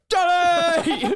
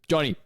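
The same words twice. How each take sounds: First: The name is shouted very loudly. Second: The name is said at normal, quiet volume.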